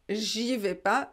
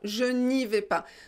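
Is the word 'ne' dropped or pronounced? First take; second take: dropped; pronounced. First: The 'ne' is left out. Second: The 'ne' is clearly pronounced.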